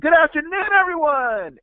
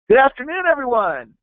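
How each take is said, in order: First: The greeting is said with more energy. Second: The greeting is said with moderate energy.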